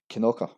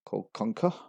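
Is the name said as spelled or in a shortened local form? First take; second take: shortened local; as spelled. First: The name is said in a short local form. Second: The name is said mostly following the spelling. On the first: The speaker calls it right. "actually pronounced as Kinoka" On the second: The speaker calls it wrong. "two of the most common mispronunciation"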